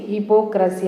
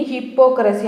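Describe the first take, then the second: First: హిపోక్రసీ with a single light p; right pronunciation. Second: హిప్పోక్రసీ with a doubled, hard pp; wrong pronunciation. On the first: Teacher gives students the correct version, single light p. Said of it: "ఇలా పలకాలి". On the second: Teacher shows students the wrong way, doubled hard pp. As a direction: say హిప్పోక్రసీ with a long stopped p in the middle. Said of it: "wrong pronunciation". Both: Shown as a demonstration.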